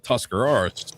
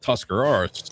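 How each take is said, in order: First: The middle consonant is a clear R sound. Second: The middle consonant is a clear R sound.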